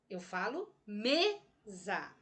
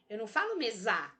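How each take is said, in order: First: The stress is on the first syllable. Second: The stress is on the second syllable. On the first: The speaker calls it right. "Me é a sílaba mais forte da palavra mesa" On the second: The speaker calls it wrong.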